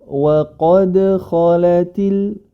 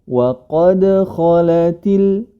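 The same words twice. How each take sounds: Both takes have the same delivery.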